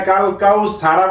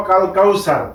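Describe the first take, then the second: First: "কাল কাউ সারা" with the final "a" sounded; unstopped ending. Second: "কাল কাউ সার" ending on a vowelless r; sakin stop ending. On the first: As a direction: end "সারা" on an open vowel after r. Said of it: "কাল কাউ সারা বলবো না". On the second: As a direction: close "সার" on r, no vowel after it. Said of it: "সাকিন লাগিয়ে পড়বো". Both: Shown as a demonstration.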